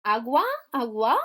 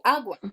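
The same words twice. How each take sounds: First: Agua wrongly stressed on the final A, questioning; stress on last syllable. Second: Agua stressed on its opening A, falling after it; stress on first syllable. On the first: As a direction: say agua as a-GUA, offered as an option. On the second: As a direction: say agua as AH-gwa. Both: Shown as a demonstration. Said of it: "¿dónde va el acento?".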